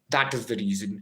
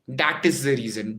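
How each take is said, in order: First: The first word starts with a soft th sound. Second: The first word starts with a hard d sound. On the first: The speaker calls it right. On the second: The speaker calls it wrong.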